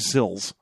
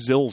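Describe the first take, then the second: First: The name begins with a plain S sound. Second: The name begins with a Z sound. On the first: "We don't know if that T is silent or not" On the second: "Might make turn into a Z sound"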